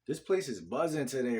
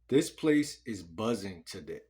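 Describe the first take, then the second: First: It is said confidently, with more energy. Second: It is said hesitantly, with little energy.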